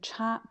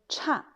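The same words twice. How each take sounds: First: The syllable has a high level tone. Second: The syllable has a sharp falling tone. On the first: It means difference. "premier ton" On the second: It means bad or inferior. "quatrième ton"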